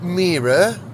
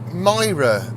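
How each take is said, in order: First: The first vowel sounds like 'ee'. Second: The first vowel sounds like 'eye'. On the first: The speaker calls it wrong. "not Mira" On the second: The speaker calls it right. "but Myra, apparently. That's how people say it around here"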